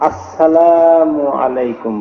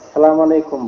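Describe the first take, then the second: First: It starts with a clearly spoken 'as' sound. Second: It is rushed and starts directly with 'salam'. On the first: The speaker calls it right. "শুরুতে আলিফ বা হামজা স্পষ্ট করে বলতে হবে" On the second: The speaker calls it wrong. "তাড়াহুড়া করতে গিয়ে"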